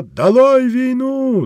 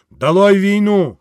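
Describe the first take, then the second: First: Much higher, slow and louder; echoed slogan. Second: Down with the war, higher and louder; agitator's cry; rally cry. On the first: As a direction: cry the slogan out as the list peaks. Narrator climax echoing slogan. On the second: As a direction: shout the slogan to the crowd. Slogan at speech's peak. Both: Acted.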